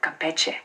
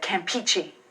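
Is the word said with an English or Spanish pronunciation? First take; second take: Spanish; English. First: It is said with a Spanish pronunciation. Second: It is said with an English-style pronunciation. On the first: The speaker calls it right. "instead of Campeche" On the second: The speaker calls it wrong. "I said Campeche"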